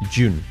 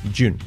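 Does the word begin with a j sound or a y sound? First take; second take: j sound; j sound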